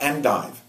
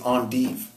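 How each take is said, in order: First: It is pronounced as spelled, English-style. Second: It is pronounced the French way. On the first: The speaker calls it wrong. "It's not endive. You don't you don't pronounce it just the way you spell it" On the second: The speaker calls it right. "It's endive. because it comes from French"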